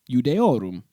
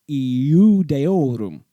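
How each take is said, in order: First: The word is said quickly, sounds running together. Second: The word is said slowly, sounds kept apart.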